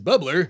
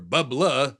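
First: The word is said without a regional accent. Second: The word is said in a Massachusetts accent.

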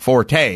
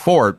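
First: The word is said with two syllables. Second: The word is said with one syllable. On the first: This is how most people say it. "everyone else says it's Forte" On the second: This is the technically correct form. "you may be technically correct in that it isn't Forte, it's Fort"

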